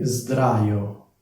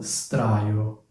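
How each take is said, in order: First: The opening s is voiced, like a z. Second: The opening s is voiceless, like a hiss. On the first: The speaker calls it right. "la S diventa una S, quindi sdraio" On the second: The speaker calls it wrong. "non straio"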